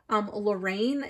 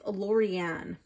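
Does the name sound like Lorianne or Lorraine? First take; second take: Lorraine; Lorianne. First: The name is said as Lorraine. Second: The name is said as Lorianne. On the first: The speaker calls it wrong. "it's not Lorraine" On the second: The speaker calls it right. "it's Lorianne"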